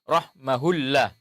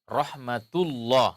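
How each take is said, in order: First: An h sound is heard after 'rahma'. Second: A t sound is heard after 'rahma'. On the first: The speaker calls it wrong. "tidak boleh dibaca rahmahullah" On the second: The speaker calls it right. "ketika disambung, tetap dia jadi ta"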